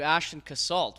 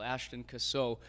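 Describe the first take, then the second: First: The surname is said with an English-style ending. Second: The surname is said with a French-style ending. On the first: The speaker calls it wrong. "we were calling you Ashton Cassalt" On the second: The speaker calls it right. "it's the French way of saying castle"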